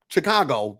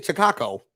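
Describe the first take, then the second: First: Said in the usual way. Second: "Chicago" with a hard k in the last syllable; mobster-style pronunciation. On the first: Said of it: "Why you keep saying Chicago?". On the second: Retold or imitated. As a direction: say "Chicago" as "Chi-kah-ko", mock mobster style. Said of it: "trying to say it like a mobster".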